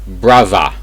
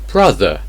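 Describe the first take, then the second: First: It has a v sound and an uh ending. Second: It has a th sound and an er ending. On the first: "But in Cockney English, it's brava" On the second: "Normally in received pronunciation, it should be brother"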